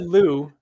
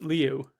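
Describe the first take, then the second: First: The name is a single 'loo' sound. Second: The name has an 'ee' glide before 'oo'. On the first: The speaker calls it wrong. "We've always said Lou 'cause I never knew how it was" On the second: The speaker calls it right. "it's Liu. So you actually do sound out the I in Liu"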